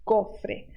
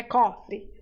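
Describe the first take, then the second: First: Cofre said the Spanish way, ending in a clear e; correct Spanish cofre. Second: Cofre said Portuguese style, ending in an i sound; wrong Portuguese cofre. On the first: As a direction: cofre with a pure final e, not i. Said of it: "não é cofre, cofre". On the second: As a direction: cofre with a reduced final e like cofri. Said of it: "não é cofre". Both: Shown as a demonstration.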